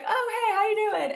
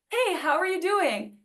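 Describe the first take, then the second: First: It sounds offhand and dismissive, said in passing. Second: It sounds sincere and attentive, inviting an answer.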